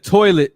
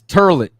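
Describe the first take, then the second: First: Toilet is said with the standard oi sound. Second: Toilet sounds like turlet, Brooklynese style.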